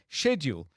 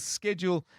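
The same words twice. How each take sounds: First: The word is pronounced the British way. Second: The word is pronounced the American way. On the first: "schedule is standard in British English" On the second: "Schedule is standard in American English"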